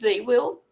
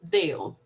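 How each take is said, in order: First: Both words are said in full. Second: The words are contracted into one syllable.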